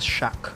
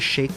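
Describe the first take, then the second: First: The vowel sounds like the one in 'cat'. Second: The vowel sounds like the one in 'day'. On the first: The speaker calls it wrong. "she says shack" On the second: The speaker calls it right. "she doesn't say shake"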